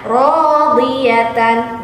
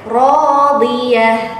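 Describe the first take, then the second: First: The word ends with a t and -an. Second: The word ends with a soft h sound. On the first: The reader continues without stopping. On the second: The reader stops on this word. "jika wakof dibaca radiyah, nah, menjadi ha"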